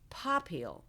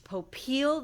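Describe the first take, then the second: First: The stress is on the first syllable. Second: The stress is on the second syllable. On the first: This is how another branch of the family says it. "with the emphasis on the first syllable" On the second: This is how the speaker's own name is said. "stressed on the second syllable"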